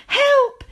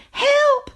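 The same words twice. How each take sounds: First: High, loud panicked scream for help; storybook scream much higher and louder. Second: High, loud scream breaking into a cry; panicked wail much higher and louder. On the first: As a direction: shriek it in terror. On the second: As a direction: shriek and sob in fright. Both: A narrator's reading. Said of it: "she screamed".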